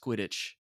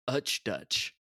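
First: The word starts with a clear K sound. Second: The word starts with a vowel sound. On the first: The speaker calls it right. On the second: The speaker calls it wrong.

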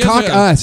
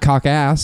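First: The second syllable sounds like 'us'. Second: The second syllable sounds like 'ass'. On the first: The speaker calls it right. "It's cock us" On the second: The speaker calls it wrong. "not cock ass"

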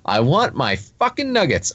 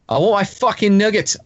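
First: It is said in the speaker's ordinary accent. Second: It is said in an Australian accent. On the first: The speaker calls it wrong. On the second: The speaker calls it right.

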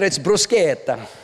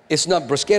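First: It is said Italian-style, middle vowel held long. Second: It is said in a plain English way.

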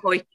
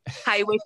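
First: The name is said with one syllable. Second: The name is said with two syllables. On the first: The speaker calls it right. "no, Hoyk" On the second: The speaker calls it wrong. "Some people will probably say Haywick"

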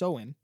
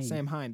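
First: It is said as 'sow-in', without the m. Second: It is said as 'sam-hain', following the letters. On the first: The speaker calls it right. "It's pronounced Soin" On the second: The speaker calls it wrong. "That's not correct"

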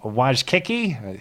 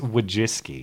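First: The name ends with a 'kiki' sound. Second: The name ends with a 'ski' sound. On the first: The speaker calls it wrong. "even he couldn't pronounce it... He said it like that" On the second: The speaker calls it right. "It's Wajiski"

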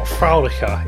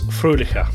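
First: The first vowel sounds like 'ow'. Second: The first vowel is a rounded 'ö'. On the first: The speaker calls it wrong. "it's not Fraulicher" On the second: The speaker calls it right. "it's Fröhlicher"

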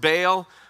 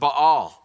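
First: It is said the way local listeners say it. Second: It is said the Middle Eastern way. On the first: "some of you pronounce it Baal" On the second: "in Middle East, they pronounce it Baal"

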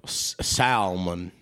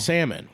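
First: The L in the word is pronounced. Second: The L in the word is silent. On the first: "A lot of people like to pronounce that L" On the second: "Why is there an L?"

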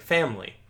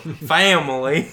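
First: It is said in a plain, neutral accent. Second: It is said in a Southern drawl. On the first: This is how he spoke before moving. "the videos came out from the day before of him saying family" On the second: He picked up the local accent overnight. "And then family. The next day"

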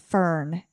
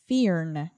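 First: The vowel sounds like the 'er' in fern. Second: The vowel sounds like the word ear. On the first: The speaker calls it wrong. "It looks like fern" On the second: The speaker calls it right. "you actually pronounce it fearn, like the I-R says ear"

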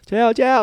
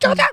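First: It is said more slowly. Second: It is shouted quickly.

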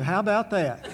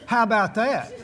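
First: The voice cracks like a teenage boy's. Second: The voice sounds steady and excited.

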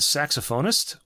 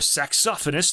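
First: The word is said in a non-British way. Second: The word is said in a British way.

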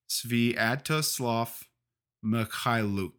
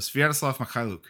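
First: The name is said slowly. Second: The name is said quickly. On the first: The speaker calls it wrong. "I was just slowing it down for the folks at home" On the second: The speaker calls it right. "if you say it really fast"

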